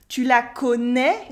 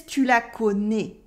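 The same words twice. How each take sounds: First: "connais" ending on an open eh; Parisian open eh. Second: Southern French "connais" ending on a closed ay; southern French accent. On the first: French teacher showing what he doesn't say, Parisian "connais" with eh. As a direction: finish "connais" like ko-neh, Parisian style. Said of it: "more Parisian with this eh". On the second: French teacher copying the dream character, southern French closed "connais". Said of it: "speaks with a southern accent". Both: Shown as a demonstration.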